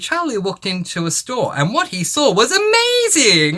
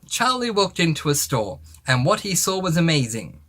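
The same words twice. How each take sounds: First: It is exclaimed with excitement and energy. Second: It is read in a flat, even tone.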